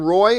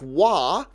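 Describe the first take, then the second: First: The name begins with an R sound. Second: The name begins with a W sound. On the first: "I don't know if you pronounce your last name Roy" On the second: "like another good French Canadian I know by the name of Patrick"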